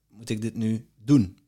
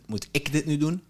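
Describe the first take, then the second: First: The stress falls on the word moet. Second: The stress falls on the word ik. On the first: Maybe it need not be done at all. "Of hoeft het helemaal niet?" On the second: Maybe someone else could do it. "Of kan het ook iemand anders zijn?"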